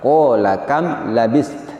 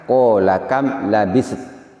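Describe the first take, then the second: First: The final s and t are both clearly sounded. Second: An extra vowel slips in, like labiset. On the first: The speaker calls it right. "cara yang betul bacanya adalah" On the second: The speaker calls it wrong.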